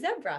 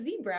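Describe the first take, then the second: First: It is pronounced the British way. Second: It is pronounced the American way. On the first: "over in Britain ... they say zebra" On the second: "instead of zebra"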